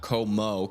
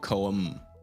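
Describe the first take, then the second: First: The name is said with two syllables, koh-moh. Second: The name is said with one syllable, kohm. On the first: The speaker calls it wrong. "Not Como" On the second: The speaker calls it right. "I think I've been saying it wrong. It's Coam"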